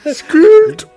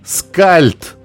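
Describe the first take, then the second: First: The title is shouted loudly, like capital letters. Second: The title is said at normal volume. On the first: The speaker calls it right. "Ну, капсом же" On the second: The speaker calls it wrong. "С капсом"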